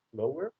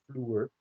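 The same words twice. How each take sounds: First: "slower" in two syllables, O and ER apart; "slower" with a separate ER syllable; hypothetical ER ending. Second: "vloer" as one syllable with an oo vowel; one-syllable Dutch "vloer"; OE as one sound. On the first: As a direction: split "slower" into O plus an ER ending. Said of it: "if it would be E R ending, we would pronounce this". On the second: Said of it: "O E in Dutch always form one, uh, sound". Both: Shown as a demonstration.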